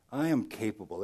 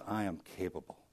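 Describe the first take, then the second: First: Said in the usual way. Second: "I am capable" spoken much softer and lower, gently; "I am capable" whispered-soft and tender; God's gentle voice. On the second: Pretend. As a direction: hush it as God's quiet promise. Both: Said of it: "he says".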